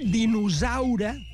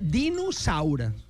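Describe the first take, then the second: First: The s is voiced, like a z. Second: The s is voiceless, like an s. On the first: The speaker calls it wrong. "això està mal pronunciat" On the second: The speaker calls it right. "És sorda"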